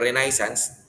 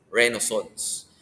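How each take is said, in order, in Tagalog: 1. Binibigkas ito sa istilong Pilipino. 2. Binibigkas ito sa istilong Pranses, paloob ang tunog.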